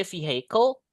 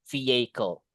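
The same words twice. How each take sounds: First: "vehicle" with an audible H, "vee-hay-kol"; H pronounced. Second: "vehicle" with no H, "vee-ay-kol"; "vehicle" gliding from vee straight into ay; silent H. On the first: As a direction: sound the H in the middle of "vehicle". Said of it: "you can say vehicle". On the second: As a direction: drop the H in "vehicle". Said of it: "lebih baik secara pronunciation itu vehicle". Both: Shown as a demonstration.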